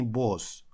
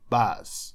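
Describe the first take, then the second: First: The vowel is a rounded 'o' sound. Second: The vowel is an open 'a' sound. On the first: The speaker calls it wrong. "Не босс" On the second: The speaker calls it right. "это A, A. То есть это звук, формируемый в нижней части горла"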